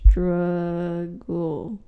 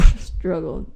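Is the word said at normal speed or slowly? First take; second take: slowly; normal speed. First: It is said slowly and drawn out. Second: It is said at normal speed.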